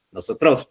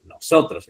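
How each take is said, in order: First: "nosotros" stressed on TROS; misstressed no-so-TROS, rising; wrong final stress. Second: "nosotros" stressed on SO, falling; correct penultimate stress. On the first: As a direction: push "nosotros" up onto its last syllable. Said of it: "porque usted no dice". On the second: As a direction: land on the middle syllable of "nosotros". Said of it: "dice nosotros". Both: Shown as a demonstration.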